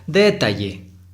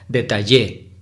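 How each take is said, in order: First: The stress is on the first syllable. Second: The stress is on the last syllable. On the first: "Si fuera la sílaba tónica en D, se pronunciaría" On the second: "si fuera en la última sílaba en Y, sería"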